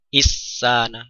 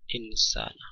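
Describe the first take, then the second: First: The n merges completely into the s. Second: The n is hidden with a long nasal hum. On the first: The speaker calls it wrong. "tidak juga dengan mengidghamkan nun sukun kepada sin" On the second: The speaker calls it right. "ini adalah bacaan ikhfa ya"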